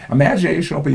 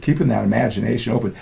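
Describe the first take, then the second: First: "Imagination open" repeated higher, each word leaned on; emphatic repeat. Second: Said in the usual way. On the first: Shown as a demonstration. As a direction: stress the words "Imagination open" as a pointed echo.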